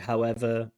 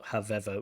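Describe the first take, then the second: First: The middle consonant is a W sound. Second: The middle consonant is a V sound. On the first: The speaker calls it right. "Should be however" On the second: The speaker calls it wrong. "not however"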